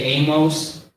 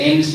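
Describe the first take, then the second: First: Amos as AY-mohss, full O; others' pronunciation. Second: Amos as AY-muss, short weak ending; own pronunciation. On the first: Showing what some people may say, Amos as AY-mohss. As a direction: say Amos with a clear "mohss" ending. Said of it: "Some people may say Amos". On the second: Teacher explaining his own choice, Amos as AY-muss. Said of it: "I say Amos because". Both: Shown as a demonstration.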